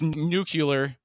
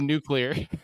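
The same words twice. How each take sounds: First: The middle sounds like 'cue-lar', as nucular. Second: The middle sounds like 'clee-ar', as nuclear. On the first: This is the regional Texas way of saying it. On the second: This is the standard way of saying it.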